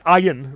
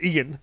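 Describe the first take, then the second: First: The name starts with the letter-name I sound. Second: The name starts with a different vowel sound. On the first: This is how some people mispronounce the name. The speaker calls it wrong. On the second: This is the name's own pronunciation. The speaker calls it right.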